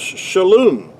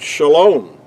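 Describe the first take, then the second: First: The second syllable has a non-'o' vowel. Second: The second syllable has an 'o' vowel. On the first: This is the ancient Hebrew pronunciation. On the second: This is the modern Hebrew pronunciation.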